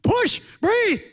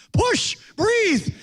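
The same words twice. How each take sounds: First: Higher, louder yell of push and breathe; yelling orders. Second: Loud high yell of push and breathe; movie doctor yelling. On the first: Preacher yelling at pregnant woman in parking lot, loud shout. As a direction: shout it at the mother like a movie doctor. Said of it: "So I'm yelling at the pregnant woman". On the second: Doctor yelling at the pregnant woman, loud commanding shout. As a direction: bark it like a movie doctor at a birth. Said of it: "The doctor was yelling". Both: Retold or imitated.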